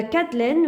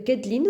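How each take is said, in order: First: Kathleen said the French way, the way she reads it first; first way of saying the name. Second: Kathleen given its alternative pronunciation; other way of saying the name. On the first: Naming the shade for viewers, Kathleen said French style. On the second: Telling viewers they may also say Kathleen, other pronunciation. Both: Shown as a demonstration. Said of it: "que vous pouvez dire Kathleen aussi".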